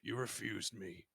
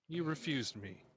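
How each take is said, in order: First: It is said in a gruff, rough voice. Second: It is said in a plain, less gruff voice.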